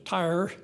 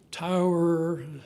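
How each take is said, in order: First: The vowel is flattened toward a single 'ah' sound. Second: The vowel is a full two-part 'ow-er' sound. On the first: "as opposed to" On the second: "the way they did in Ohio"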